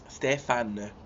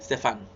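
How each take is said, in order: First: It is said slowly. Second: It is said at normal speed.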